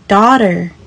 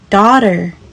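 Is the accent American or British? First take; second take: American; American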